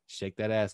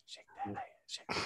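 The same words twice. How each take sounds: First: Said in the usual way. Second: Hushed, whispered catcall. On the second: Acted. Podcaster jokingly repeating a catcall under the talk, whispered. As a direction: whisper it almost without voice.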